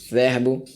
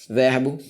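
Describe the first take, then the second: No difference in how they are said.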